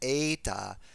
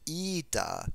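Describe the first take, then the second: First: It is said in the Erasmian way. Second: It is said in the modern Greek way. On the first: "Erasmian learners have learned as the eta" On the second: "the modern Greek ida"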